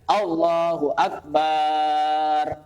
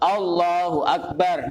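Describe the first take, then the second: First: The vowel after b in Akbar is drawn out long. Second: The vowel after b in Akbar is short. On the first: The speaker calls it wrong. "tidak boleh" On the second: The speaker calls it right.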